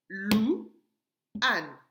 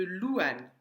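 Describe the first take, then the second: First: "Louane" in two loud, separate beats; "Louane" broken in two for a young class; split into syllables. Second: Said in the usual way. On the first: Shown as a demonstration. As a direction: clap out "Louane" with a long pause between syllables. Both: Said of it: "me trouver la première syllabe".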